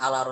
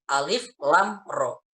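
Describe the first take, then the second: First: The letters are read as short voweled syllables. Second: The letters are read as their full names. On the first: The speaker calls it wrong. "alaro salah" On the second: The speaker calls it right. "dibaca sesuai dengan lafal hurufnya masing-masing"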